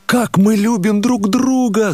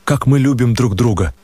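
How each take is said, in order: First: High and slow, a pained exclamation; anguished cry. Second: Said in the usual way. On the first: A narrator's reading. The narrator cries Nastenka's words back at her, pained. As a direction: throw the words back at her, much higher and drawn out. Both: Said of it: "закричал я".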